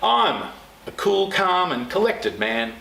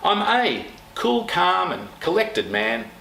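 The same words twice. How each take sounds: First: The word I'm carries the strongest stress. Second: The word a carries the strongest stress. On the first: "emphasise the next word every time you say the sentence" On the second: "Notice the tone down"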